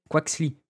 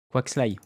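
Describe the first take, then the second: First: Quaxly ending in "-lee"; slow Quaxly, rhyming with "see"; unsure pronunciation. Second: Quaxly ending in "-lie"; second guess at Quaxly, rhyming with "sky"; alternative pronunciation. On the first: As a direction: say Quaxly with a final "ee" sound. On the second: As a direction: say Quaxly with a final "eye" sound. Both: Real, not acted. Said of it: "Je sais pas".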